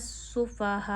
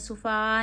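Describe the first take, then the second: First: The h sound is clearly pronounced from the throat. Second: The h sound in the middle is dropped. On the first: The speaker calls it right. "इसे अच्छे से अदा करिए" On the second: The speaker calls it wrong. "इस हा को खाना नहीं है, सुफ़ा नहीं पढ़ना"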